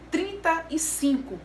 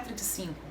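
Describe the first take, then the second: First: The number is said slowly and fully. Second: The number is said quickly and clipped. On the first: The speaker calls it right. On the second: The speaker calls it wrong.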